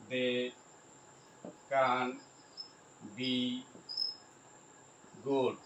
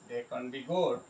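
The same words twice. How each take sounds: First: Isolated words with long pauses. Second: Said in the usual way. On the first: Shown as a demonstration. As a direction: dictate one word at a time. Spelling out example while writing.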